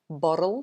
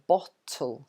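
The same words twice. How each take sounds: First: The middle t is a soft, flapped sound. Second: The middle t is a clear, crisp t. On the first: "in American they tend to say bottle" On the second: "in England you would say bottle"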